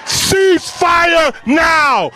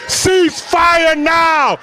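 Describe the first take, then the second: No difference in how they are said.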